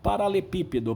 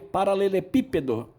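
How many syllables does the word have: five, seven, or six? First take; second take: six; seven. First: One 'le' syllable is dropped, leaving six syllables. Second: The word is said in full with seven syllables. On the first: "O povo engole um dos lês e falam paralepípedo" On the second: "Olha a dificuldade de falar paralelepípedo"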